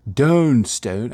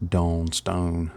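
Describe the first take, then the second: First: Dawn Stone in a loud, higher hammed-up southern drawl; southern accent. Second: Said in the usual way. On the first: Shown as a demonstration. Painter announcing the paint name, hammed-up southern accent. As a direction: belt out "Dawn Stone" like a southern good ol' boy. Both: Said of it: "I have to say it with a southern accent".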